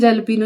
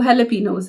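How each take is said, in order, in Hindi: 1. यह शब्द J की ध्वनि से शुरू होता है। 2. यह शब्द H की ध्वनि से शुरू होता है। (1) "जैलपीनो नहीं" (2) "इसकी प्रोनाउंसिएशन जो है वो हैलापिनोज़ है"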